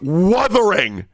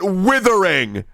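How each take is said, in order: First: The first vowel is an 'uh' sound. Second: The first vowel is an 'ih' sound. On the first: The speaker calls it right. "It's wuthering" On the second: The speaker calls it wrong. "not withering"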